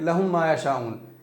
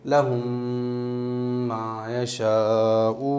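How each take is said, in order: First: It is said hastily without holding the m. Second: The m is held with a long nasal hum.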